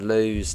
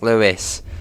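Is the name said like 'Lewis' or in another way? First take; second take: another way; Lewis. First: The name is not said like 'Lewis'. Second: The name is said like 'Lewis'. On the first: The speaker calls it wrong. "which I've heard a lot of time called Lewes" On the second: The speaker calls it right. "No, it, it's Lewis"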